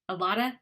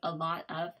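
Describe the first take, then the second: First: The 'of' shrinks to a schwa joined on. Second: The 'of' is said fully as a separate word. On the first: "combined ones ... that's a schwa sound" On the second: "instead of"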